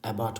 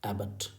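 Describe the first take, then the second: First: एबॉट with an open aw vowel at the end; wrong pronunciation. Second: एबॉट said AB-uht, weak second vowel; correct pronunciation. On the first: Teacher voices what learners might read, एबॉट mispronounced with full o. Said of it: "लेकिन नहीं". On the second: Teacher corrects the reading of abbot, एबॉट pronounced AB-uht. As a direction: reduce the end of एबॉट to a short uh. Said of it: "बल्कि उच्चारण अ आया है". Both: Shown as a demonstration.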